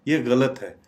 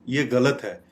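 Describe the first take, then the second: Both takes have the same delivery.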